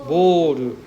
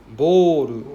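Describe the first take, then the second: No difference in how they are said.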